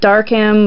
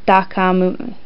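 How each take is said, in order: First: It is said as an English-style word. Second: It is said Japanese-style with a final vowel. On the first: "you've got Darkham" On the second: "for the Japanese version"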